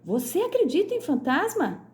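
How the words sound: It is said with exclamatory intonation. The speaker is surprised by the belief. "você está exclamando"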